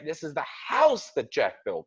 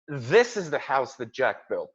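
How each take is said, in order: First: It is said in a disbelieving, incredulous tone. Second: It is said in a plain, matter-of-fact tone. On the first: It is hard to believe this person built the house. "I'm saying it with disbelief" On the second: That particular house is the one that was built. "I'm pointing my finger at that house"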